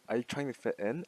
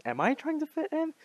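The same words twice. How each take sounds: First: Said in the usual way. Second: High-pitched doubting question on "Am I trying to fit in"; self-questioning. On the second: Real, not acted. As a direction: ask yourself "Am I trying to fit in", voice shooting up. Turns the question on herself.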